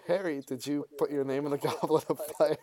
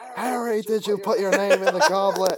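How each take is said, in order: First: It is said in a calm, composed way. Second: It is said in a frantic, agitated way.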